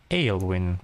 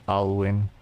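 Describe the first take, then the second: First: Aylwin said as "ALE-win", pitch falling; settled pronunciation. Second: Alwyn with an open "Al", like "owl-win"; first-guess pronunciation. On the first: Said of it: "I think". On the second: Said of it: "How do you actually pronounce that". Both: Real, not acted.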